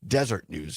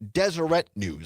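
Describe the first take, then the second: First: The first word is said with two syllables. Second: The first word is said with three syllables. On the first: The speaker calls it wrong. "I was pronouncing it Desert News" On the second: The speaker calls it right. "the cor- correct pronunciation is Deseret News"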